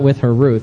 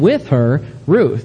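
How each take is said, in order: First: 'Her Ruth' runs together as one phrase. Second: A short break separates 'her' from 'Ruth'. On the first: Ruth is something she is carrying, like a candy bar. The speaker calls it wrong. "not with her Ruth. That means something else" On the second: Ruth is the person traveling along with her. The speaker calls it right. "and with her Ruth"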